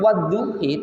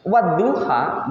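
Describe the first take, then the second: First: The word ends with an 'i' sound. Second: The word ends with an 'a' sound. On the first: "bacanya memang wadduhi" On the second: "bukan wadduha"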